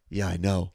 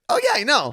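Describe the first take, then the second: First: It is said in a low, deep voice. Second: It is said in a high-pitched voice.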